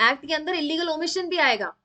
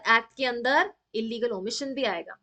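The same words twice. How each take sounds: First: भी leaned on, ending in a firm fall; stress on भी. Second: अंदर leaned on, the rest steady; stress on अंदर. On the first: Teacher repeating the rule to students, stressing भी. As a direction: hit भी hard to make the point. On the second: Teacher explaining to students, stressing अंदर. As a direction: push the word अंदर as the key point. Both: Shown as a demonstration. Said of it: "यही कहना चाहता है कि brother".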